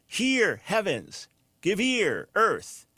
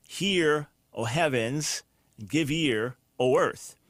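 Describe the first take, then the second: First: "Hear, heavens, give ear, earth" higher, each word set apart by pauses; alliterative reading. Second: Said in the usual way. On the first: Shown as a demonstration. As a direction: lift "Hear" and "heavens" so the h sounds chime. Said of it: "they feel the alliteration". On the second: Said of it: "which is literally".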